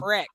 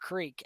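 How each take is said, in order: First: The word is said like 'crick'. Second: The word is said like 'creek'. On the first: The speaker calls it wrong. "some people also say crick instead of creek, and it drives me nuts" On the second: The speaker calls it right. "instead of creek"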